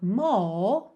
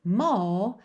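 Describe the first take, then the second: First: The R is dropped and the vowel lengthened, British style. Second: The same.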